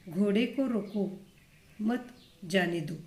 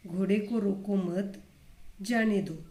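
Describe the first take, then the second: First: घोड़े को रोको, then a break, मत जाने दो said together; pause after रोको. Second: घोड़े को रोको मत run together, a break, then जाने दो; pause after मत. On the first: Teacher showing how punctuation changes meaning, pausing after रोको. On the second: Teacher showing the reversed meaning by pausing after मत. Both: Shown as a demonstration. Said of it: "अलग-अलग स्थान पर विराम चिन्ह लगाने से".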